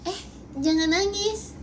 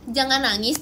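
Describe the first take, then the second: First: High, mocking fake sympathy with a laugh; sarcastic. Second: Said in the usual way. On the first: Shown as a demonstration. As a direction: tease in a raised voice, then laugh at them. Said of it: "itu sarkas banget". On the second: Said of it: "kalau misalnya bilang".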